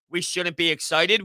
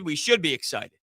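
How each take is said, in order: First: "shouldn't" stressed, ending on a questioning rise; "We shouldn't be excited" lifted into a doubtful question. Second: "We should be excited" settled down with a fall; stress on should. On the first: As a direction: say "shouldn't be excited" as if testing the idea. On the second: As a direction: state "should be excited" as the corrected version. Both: Shown as a demonstration. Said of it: "Where are you taking that statement?".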